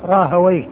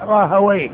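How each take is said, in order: First: The name ends with an open -wayh syllable. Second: The same.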